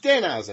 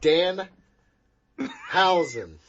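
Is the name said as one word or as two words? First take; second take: one word; two words. First: The name is run together as one word. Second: The name is split into two separate words. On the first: The speaker calls it right. "It's like one word" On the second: The speaker calls it wrong. "like his last name is Hausen"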